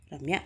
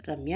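First: Calling her name a bit firmer, rising; raised voice. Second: Sweet call. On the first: Ranjit calls Ramya again when she won't wake, more firmly. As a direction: call again, more insistent. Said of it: "ఈసారి స్వరం రెట్టించి". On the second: Ranjit gently wakes sleeping Ramya, sweetly calling her. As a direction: gently coax her awake. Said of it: "అంటూ స్వీట్గా పిలిచాడు". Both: A narrator's reading.

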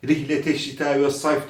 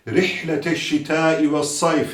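First: "Rihlete" with a light Turkish h; soft h. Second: Slow "Rihlete" with Arabic throaty h; correct ha. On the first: Quran teacher showing what to avoid, light h. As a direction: pass lightly over the h of "Rihlete". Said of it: "diye geçmeyeceğiz". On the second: Quran teacher modelling the letter ha, slow and throaty. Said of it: "ha harfidir". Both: Shown as a demonstration.

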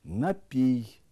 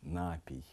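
First: Напій stressed on the last syllable, напІй; correct stress. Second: Напій stressed on the first syllable, нАпій; wrong stress. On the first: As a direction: say Напій with stress on пій, loud. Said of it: "порушують наголос у таких словах". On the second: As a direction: say напій with stress on на, much softer and lower. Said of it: "Неправильно". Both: Shown as a demonstration.

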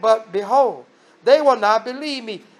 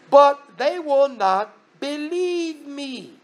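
First: Said in the usual way. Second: "But they will not believe me" drawn out very slowly, higher; slow emphatic quote. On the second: Retold or imitated. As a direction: stretch each word of "But they will not believe me", lingering on the end. Moses' objection repeated for emphasis.

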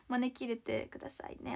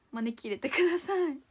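First: Said in the usual way. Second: 招き入れてください said louder, with a strong fall on だ; loud plea. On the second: Real, not acted. Begging fans in Osaka to invite her, louder.

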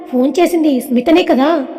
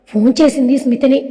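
First: Puzzled, questioning on స్మితనే; lightly puzzled query; confused question. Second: Understated sorrow, phone చేసింది స్మితనే falling; a touch of grief; sad statement. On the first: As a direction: ask phone చేసింది స్మితనే కదా as a bewildered question. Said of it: "అయోమయంగా అడిగింది". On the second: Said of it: "అని బాధగా చెప్పింది". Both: A narrator's reading.

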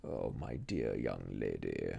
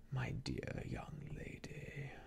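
First: Low, slow, honeyed and soothing; caressing and soothing. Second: Low, slow, much softer near-whispered coo; soothing murmur. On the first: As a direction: soothe her like a false friend. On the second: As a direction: breathe it softly to calm her. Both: A narrator's reading. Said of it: "caressing and soothing his manner".

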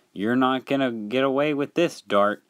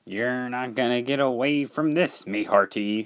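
First: Higher-pitched, restrained call; mild yell. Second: Put-on old salt voice; pirate-style sailor. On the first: Acted. Dennis catching Dart in the act, mildly yelling. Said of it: "he yelled". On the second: Salty blocking Dart's escape, pirate-style warning. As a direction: warn him off like a pirate.

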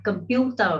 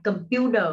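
First: Computer with a crisp British t and no final r; British English pronunciation. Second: American English pronunciation. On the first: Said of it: "Cách đọc của người Anh". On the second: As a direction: say computer the American way, t flapped. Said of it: "Cách đọc của người Mỹ". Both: Shown as a demonstration.

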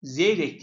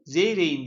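First: Zeyrek said as spelt, ending in a crisp K; hard K. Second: Zeyrek'in read as "Zeyreyin", K turned into a glide; Zeyrek'in with no K sound before -in; soft G for K. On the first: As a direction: keep the final K hard in Zeyrek. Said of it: "diye yazılır". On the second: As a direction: soften the K of Zeyrek'in to a silent ğ. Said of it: "diye okunur". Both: Shown as a demonstration.

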